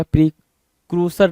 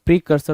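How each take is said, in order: First: प्रीक्रूसर with slow KROO in the middle; wrong pronunciation. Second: प्रीकर्सर with KUR in the middle, no "oo"; correct pronunciation. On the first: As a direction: say प्रीक्रूसर as pree-KROO-sar, slowly. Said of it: "प्रीक्रूसर नहीं होगा". (प्रीक्रूसर, बीच में "क्रू" वाला गलत उच्चारण) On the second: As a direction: say प्रीकर्सर as pree-KUR-sar. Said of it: "प्रीकर्सर होगा". (प्रीकर्सर, बीच में "कर" वाला सही उच्चारण) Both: Shown as a demonstration.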